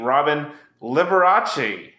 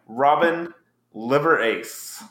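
First: "[name]" said like the pianist's name, lih-ber-AH-chee; "Robin [name]" run together as one name; joke pronunciation. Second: "Robin Liver Ace" said slowly as three separate words; "Liver Ace" spelled out like liver plus ace; split-up pronunciation. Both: Shown as a demonstration. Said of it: "I'm gonna say it this way just for my brother".

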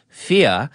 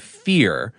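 First: "fear" said as "fee-uh" with no R; R-dropped "fear". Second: Said in the usual way. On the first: Retold or imitated. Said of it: "Roosevelt said "fear" instead of "fear". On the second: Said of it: "instead of".

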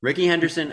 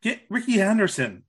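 First: High, gleeful echo of the name; excited. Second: High, eager call for Ricky; excited. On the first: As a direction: lift it with delight. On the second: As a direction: pitch it up with glee. Excited suggestion. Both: Real, not acted.

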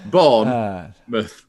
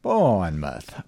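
First: Bournemouth drawn out very slowly, Yorkshire style; Yorkshire accent. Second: Bournemouth slowed, copying the Yorkshire way; Yorkshire accent try. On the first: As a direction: stretch Bournemouth, long Yorkshire vowels. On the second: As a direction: repeat Bournemouth with a drawn-out vowel. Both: Shown as a demonstration. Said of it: "You have to do it in a Yorkshire accent".

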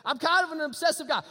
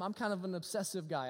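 First: Kind punched out, louder and higher; emphatic repeat. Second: Said in the usual way. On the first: Shown as a demonstration. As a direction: hammer the repeated line home. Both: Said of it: "It, it's known, okay?".

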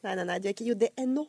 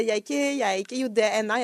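First: Rapid nos, then "J D N O" with an O ending; correcting pronunciation. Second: Quick "J D N A", run together and ending in an A sound; husband's wrong form. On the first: Wife correcting her husband at home, "J D N O" ending in O. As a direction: correct him briskly, landing on O in "J D N O". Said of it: "Jeg korrigerer han". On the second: Wife quoting her husband, "J D N A" with dialect A ending. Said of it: "Når han sier". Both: Retold or imitated.

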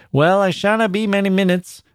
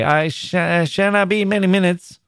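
First: A lightly higher, courteous Midlands miner; kindly neighbour reassuring her at the gate; voiced miner. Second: Higher, bashful repeat of the promise, tripping on the start; a shy man stumbling as he moves away; stammering miner. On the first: Miner's voice in the story. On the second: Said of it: "he stammered". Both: A narrator's reading.

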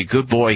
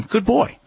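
First: Put-on good boy said low and falling; settled, low praise for a calm dog. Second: Put-on good boy lifted high with a rising end; bright high praise, boy rising; high, upbeat good boy to the dog; praising the dog. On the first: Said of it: "and then I say". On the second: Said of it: "Then I tell him". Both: Shown as a demonstration.

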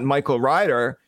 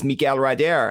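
First: Said in the usual way. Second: Miguel Ryder said as a French name; Frenchify Miguel Ryder, stress on the last syllables; French pronunciation. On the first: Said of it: "it was not Michael Ryder". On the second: Shown as a demonstration. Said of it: "it was Miguel Ryder".

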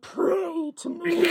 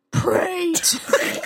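First: Very slow, soft, laughing mock Batman; hoarse, breaking Batman attempt. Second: Slow, gravelly-attempt mock Batman. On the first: [name] retries the Batman line, slow and laughing. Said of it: "Sounds like he just has laryngitis". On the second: [name] tries a Batman line for Bri, very slow. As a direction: drag it out like a bad Batman. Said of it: "I'm not good with voices". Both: Shown as a demonstration.

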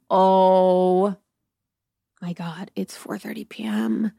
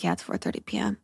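First: Long drawn-out "Oh", then hushed; mock dismay. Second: Very low, soft imitation of him; deadpan confirmation. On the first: Woman learning it is only afternoon, mock dismay. Acted dismay at the early hour. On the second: Companion confirming it is four thirty, deadpan. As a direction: drop the pitch right down, quietly.

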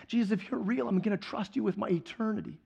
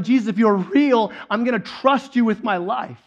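First: Softer, understated pledge; quiet vow. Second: A touch of a yell, louder than talk; retold yell. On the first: Retold or imitated. New believer pledging trust to Jesus, softly voiced. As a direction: bring the voice down for a sincere promise. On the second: Peter yelling his trust to Jesus, mild retold yell. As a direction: call it out with mild force. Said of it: "what's Peter yelling? He's yelling".

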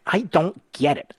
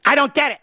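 First: Slow, deadpan I don't get it; mock puzzled. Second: Much higher and louder, a hammed-up outburst; mock exasperated. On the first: Host joking to listeners about being impatient, slow deadpan puzzlement. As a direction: feign innocent confusion, slowly. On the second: Host joking that he's impatient, mock exasperated outburst. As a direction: blow up in fake frustration. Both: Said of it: "Oh, just kidding".

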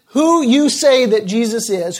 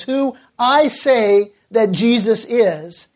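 First: "you" picked out against the speaker himself; stress on you. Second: Slowly, with weight on "I"; "I" drawn out and set against the listeners; stress on I. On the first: Preacher putting the question to congregation, stress on "you". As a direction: lean on "you" in "who you say". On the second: Preacher turning the question on himself, stress on "I". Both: Real, not acted.

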